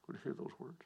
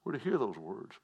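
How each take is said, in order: First: Much softer, almost to himself; soft echo. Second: Said in the usual way. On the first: Shown as a demonstration. Preacher repeating his call to the congregation, softly. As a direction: let the repeat sink in, quietly.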